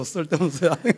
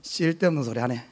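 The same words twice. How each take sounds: First: "쓸데없는 소리 하네" said through a laugh, rising at 하네; amused retelling with a laugh. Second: "쓸데없는 소리 하네" muttered low and curt, brushing the question off; a touch of a blunt husband dismissing his wife; mildly gruff, unsmiling brush-off; gruff Gyeongsang husband. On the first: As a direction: chuckle while repeating the brush-off. Repeats husband's line laughing. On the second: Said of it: "그러면 딱 하는 말이". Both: Retold or imitated.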